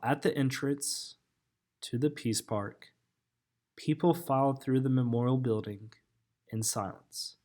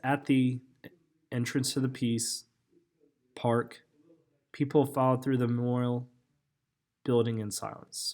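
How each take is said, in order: First: The pauses fall at natural phrase boundaries. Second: The pauses fall inside phrases where none belong. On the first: The speaker calls it right. "So that would be the correct chunking of the sentence" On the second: The speaker calls it wrong. "this chunks right between where there's no pauses"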